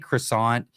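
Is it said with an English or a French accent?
English. It is said with an English accent. The speaker calls it wrong. "you can't say croissant"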